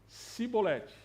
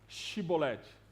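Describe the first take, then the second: First: The word begins with an s sound. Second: The word begins with a sh sound. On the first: "Eles falavam Cibolete" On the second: "eles não conseguiam falar com o S H"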